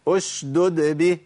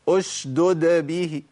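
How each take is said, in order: No difference in how they are said.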